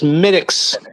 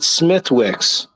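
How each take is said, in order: First: The 'th' and 'w' sounds are left silent. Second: The 'th' and 'w' sounds are clearly pronounced. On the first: The speaker calls it right. "It's Smittix" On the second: The speaker calls it wrong. "never pronounce it Smithwicks"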